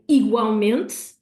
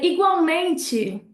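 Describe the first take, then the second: First: The vowels sound swallowed and held in the throat. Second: The vowels sound open, with more audible syllables. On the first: This is how it is said in Portugal. "the Portuguese sounds a lot more swallowed. It's a lot more in our throat" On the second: This is how it is said in Brazil. "more syllables, more open sounds"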